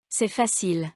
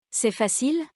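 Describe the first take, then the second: First: Facile dropping at the end; falling statement. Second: Facile lifted high at the end; rising question. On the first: Teacher demonstrating intonation descendante, falling statement on facile. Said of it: "ou descendante". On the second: Teacher demonstrating intonation montante, rising question on facile. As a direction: ask C'est facile, climbing on facile. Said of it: "Faites attention à l'intonation montante". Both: Shown as a demonstration.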